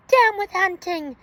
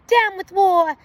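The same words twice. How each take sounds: First: Chanted, high hooted protest cry; chanted, hoot it like a little dinosaur; chanted, storybook hooting, raised pitch. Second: Chanted, high loud hooted protest; chanted, hoot it out, rallying. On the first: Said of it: "For he hooted". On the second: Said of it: "And he hooted". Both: A narrator's reading.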